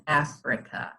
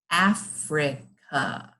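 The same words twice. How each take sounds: First: Said in the usual way. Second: Africa slowly, in three separate beats; broken into syllables. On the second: Shown as a demonstration. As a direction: say Africa syllable by syllable with short gaps. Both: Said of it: "break it up into chunks".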